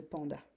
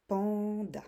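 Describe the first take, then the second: First: Said in the usual way. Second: "panda" in two beats, long first syllable. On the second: Shown as a demonstration. Teacher showing the two syllables, syllable by syllable. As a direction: stretch "pan", then add "da". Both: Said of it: "les deux syllabes de panda".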